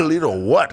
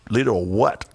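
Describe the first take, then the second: First: Higher, louder incredulous repeat; retelling it higher and louder in amazement. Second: Said in the usual way. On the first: Retold or imitated. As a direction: push the disbelief harder the second time. Repeats it with more disbelief.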